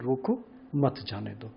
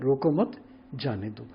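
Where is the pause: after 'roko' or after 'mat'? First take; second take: after roko; after mat. First: There is a pause right after 'roko'. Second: There is a pause right after 'mat'. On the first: Stop, do not let them go. "Comma अगर थोड़ा सा इधर लगा दें रोको की तरफ" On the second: Do not stop them, let them go. "अगर दूसरी तरफ लगा दें"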